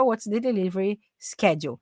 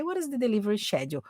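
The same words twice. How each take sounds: First: "schedule" said with initial SK; American SK-edule for "schedule"; American pronunciation. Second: "schedule" said with initial SH; British SH-edule for "schedule"; British pronunciation. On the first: Teacher trying the form strange to her, American SK in "schedule". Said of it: "é até estranho falar o schedule". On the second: Teacher showing either form is fine, British SH in "schedule". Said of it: "schedule é a pronúncia britânica". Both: Shown as a demonstration.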